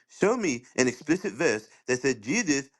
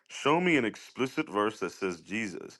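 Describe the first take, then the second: First: It is read imitating the other man's voice. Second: It is read in his own normal voice.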